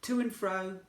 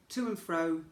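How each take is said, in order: Both takes have the same delivery.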